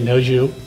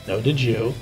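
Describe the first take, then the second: First: It is said in clipped Pittsburghese. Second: It is said in full standard English.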